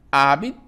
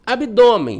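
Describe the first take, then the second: First: "abdômen" split into ab, dô, men with pauses; syllable by syllable. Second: Said in the usual way. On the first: Shown as a demonstration. Teacher answering how to separate it, syllable by syllable. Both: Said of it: "Como é que eu separo?".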